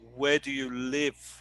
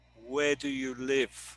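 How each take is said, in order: The two takes are said the same way.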